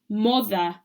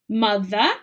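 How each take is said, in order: First: The first vowel is an 'oh' sound. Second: The first vowel is an 'uh' sound. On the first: The speaker calls it wrong. "If you weren't sure about your spelling rule or your phonics, you might read this as" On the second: The speaker calls it right. "oh is actually said as an uh"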